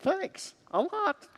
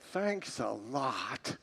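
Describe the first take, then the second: First: It is said in a sincere, grateful tone. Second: It is said in a sarcastic, displeased tone. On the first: The speaker is truly grateful. The speaker calls it right. "we should be saying" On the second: The speaker is upset and not thankful. The speaker calls it wrong. "what it actually means is we're not thankful"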